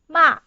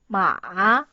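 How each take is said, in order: First: The pitch falls sharply from high to low. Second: The pitch dips low, then rises again. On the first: "it's from the top for, to the bottom" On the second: "you have to go down firstly and go up"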